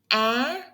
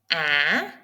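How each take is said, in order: First: The pitch rises quickly and sharply upward. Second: The pitch dips down, pauses, then rises. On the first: "raising tone... it goes up... fast and sharp" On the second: "The sound goes down, pause, and up"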